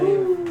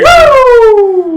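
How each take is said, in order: First: It is said with moderate energy. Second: It is said with very high energy.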